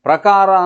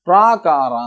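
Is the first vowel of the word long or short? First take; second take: short; long. First: The first vowel is short. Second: The first vowel is long. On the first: The speaker calls it right. "ಪ್ರಕಾರ ಅಂದರೆ" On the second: The speaker calls it wrong. "ಹ್ರಸ್ವಾಕ್ಷರಗಳನ್ನು ದೀರ್ಘಾಕ್ಷರಗಳನ್ನಾಗಿ ಉಚ್ಚರಿಸ್ತಾನೆ"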